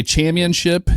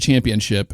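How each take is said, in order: First: "championship" with the p dropped, like "cham-yun-ship"; imitated mispronunciation. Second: Said in the usual way. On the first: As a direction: say "championship" higher, swallowing the middle p. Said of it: "And he'd say". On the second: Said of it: "instead of".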